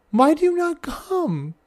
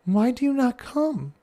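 First: Higher, slower pleading repeat; hammed-up lament to the still child; mock sad plea. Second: A touch of sad, pleading question; mock-sad plea to the child; sadly sighing. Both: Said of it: "I sadly sigh".

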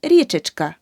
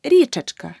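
First: Річечка with и before чк; the mistake in Річечка, и for е in the suffix; wrong suffix demo. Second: Річечка with е before чк; correct suffix demo. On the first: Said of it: "Неправильно". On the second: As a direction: say Річечка as "richechka". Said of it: "Річка плюс ечк". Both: Shown as a demonstration.

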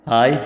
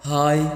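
First: Friendly hello, fairly firm; cheerful, confident hi; smiling greeting. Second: Uncertain little hi; a tentative, questioning hello; hesitant greeting. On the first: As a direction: say hi with a smile. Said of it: "അയാൾ ചിരിയോടെ വർണ്ണയെ നോക്കി". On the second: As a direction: say hi doubtfully. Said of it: "സംശയത്തോടെ hi പറഞ്ഞു". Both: A narrator's reading.

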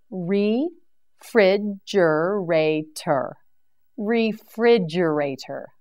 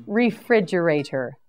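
First: "Refrigerator" stretched slowly, every syllable held; a slow, careful "Refrigerator" for learners; drawn-out model word. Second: Said in the usual way. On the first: Shown as a demonstration.

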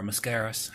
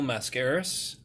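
First: Mascaras with a reduced first syllable; weak "muh" at the start of Mascaras; alternative pronunciation. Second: Mascaras with a full "mass" first syllable; alternative pronunciation. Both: Shown as a demonstration. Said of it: "however you wanna say it".

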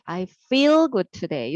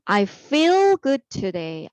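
First: Slow repeat with falling end; slow model reading. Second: Slow, clear teacher read of the sentence; slow model reading. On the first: Teacher repeating the model sentence for kids, slow. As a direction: say it again slowly, settling down. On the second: Teacher modelling the answer to students, slow. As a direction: model it slowly for the class. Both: Shown as a demonstration. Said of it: "나는 오늘 기분이 좋아".

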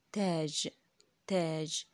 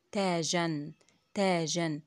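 First: Said in the usual way. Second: تاجًا with a clear -an ending; with tanween. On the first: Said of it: "تبقى إيه؟". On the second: Shown as a demonstration. Teacher to children, showing تاجًا with its -an ending. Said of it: "حطيت التنوين على حرف الجيم وزودت بعده إيه؟".

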